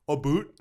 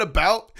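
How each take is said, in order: First: "A boot" with a Canadian oo; Canadian about. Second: Said in the usual way. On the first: Retold or imitated. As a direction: mimic the professor's "A boot". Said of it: "he was like". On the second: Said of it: "every time he said".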